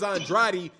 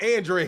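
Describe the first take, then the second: First: The name is said with three syllables, An-dra-de. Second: The name is said with two syllables, An-dre. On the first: This is the name as others with it say it. "that dude's name is Andrade" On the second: This is how the man says his own name. "calling himself Andre"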